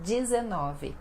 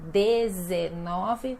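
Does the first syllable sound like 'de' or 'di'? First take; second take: di; de. First: The first syllable has an I vowel sound. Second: The first syllable has an E vowel sound. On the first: This is how people actually say it. "mas nós falamos dezenove, com som de I" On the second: This is how the word is written. "escreve, né"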